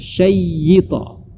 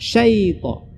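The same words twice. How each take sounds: First: The y sound is doubled and held. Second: The first syllable has a short ai glide. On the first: The speaker calls it wrong. "bukan syaita" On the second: The speaker calls it right. "Jadi bacanya menjadi uh, syaita"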